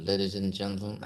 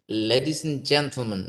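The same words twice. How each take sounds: First: The words are slurred without clear articulation. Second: The words are articulated clearly and distinctly. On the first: The speaker calls it wrong. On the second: The speaker calls it right. "the articulation should be uh, maintained"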